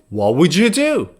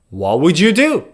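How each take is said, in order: No difference in how they are said.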